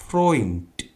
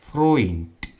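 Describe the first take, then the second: No difference in how they are said.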